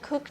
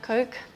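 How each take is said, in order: First: The vowel sounds like the 'oo' in book. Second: The vowel sounds like the 'oh' in go. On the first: The speaker calls it right. "we pronounce it Cook" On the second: The speaker calls it wrong. "not Coke"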